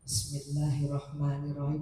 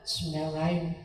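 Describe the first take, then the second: First: The voice resonates and vibrates from the chest. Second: The voice is thin, without chest vibration.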